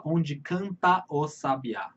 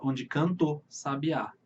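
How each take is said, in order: First: "onde canta o sabiá" slow, every syllable apart, the A before "sabiá" said in full; wrong reading. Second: "onde canta o sabiá" run together so "canta o" merges into "cantʊ"; natural reading. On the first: Teacher showing students the wrong, separate-syllable reading. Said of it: "você não fala". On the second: Teacher showing students the natural, flowing reading. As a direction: slide "canta o" into one syllable in "onde canta o sabiá". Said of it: "Você fala". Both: Shown as a demonstration.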